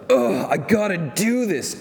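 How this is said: It is said reluctantly, with a groan.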